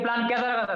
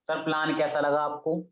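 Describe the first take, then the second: First: It is said with strong excitement and energy. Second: It is said in a dull, unexcited way.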